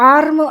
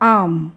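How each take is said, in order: First: An r sound follows the long vowel. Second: No r sound follows the long vowel. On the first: The speaker calls it wrong. "యూజువల్గా మనం ఆర్మ్ అంటాము, అది కాదు" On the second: The speaker calls it right. "ఈ ఆర్ అనేది silent"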